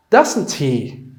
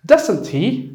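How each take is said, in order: First: "Doesn't he?" falling at the end; falling tag. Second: "Doesn't he?" pitched high, rising at the end; rising tag. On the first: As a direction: confirm with "Doesn't he?", stress "Doesn't". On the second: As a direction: ask "Doesn't he?" as a real question. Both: Shown as a demonstration. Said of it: "Marka, waa sidaa weeyaan".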